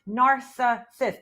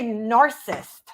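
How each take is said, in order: First: All three syllables are pronounced. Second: One syllable is left out. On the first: The speaker calls it right. "There's three syllables" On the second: The speaker calls it wrong. "you say narcissist, and that's not the word"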